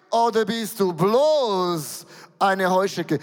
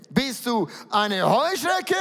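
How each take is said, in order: First: Slow, bloß hit loud and drawn out, falling after; mock the small locust by leaning on bloß; stress on bloß. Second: Said in the usual way. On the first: Shown as a demonstration. (bloß stark betont, langsam, fallend)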